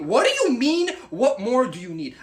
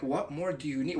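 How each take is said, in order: First: Indignant echo. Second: Low, softer quoted question; matter-of-fact retort. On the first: Acted. Guy answering her obvious hint, indignant. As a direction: throw the question back, outraged. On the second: Retold or imitated. Girl explaining her hint to Mark, matter-of-fact. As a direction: toss it off as if obvious. Quoting her deadpan reply.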